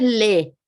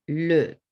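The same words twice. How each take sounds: First: "le" with a full, clear Spanish E; Spanish E, wrong take. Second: "le" with a French schwa, lower; falling, muted E. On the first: Teacher showing what the French word isn't, "le" with Spanish E. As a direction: say "le" with an open Spanish e sound. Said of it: "ven que no es le". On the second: Teacher showing the caduc E, "le" as French schwa. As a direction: let the vowel of "le" drop into a muted "luh". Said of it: "Se está cayendo". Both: Shown as a demonstration.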